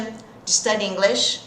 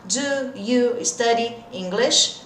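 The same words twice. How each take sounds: First: "Do you" merged into one "juh" before "study"; connected native-style "Do you", reduced to "juh"; linked, natural speech. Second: Very slow "Do you study English", every word apart; careful, unlinked word-by-word model; slow, separated words. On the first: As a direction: run "Do you study English" together at real-life speed. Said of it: "Vamos juntar o do com o you". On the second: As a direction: keep "Do" and "you" as two full words. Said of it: "na vida real não é bem assim". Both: Shown as a demonstration.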